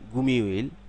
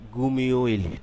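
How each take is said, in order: No difference in how they are said.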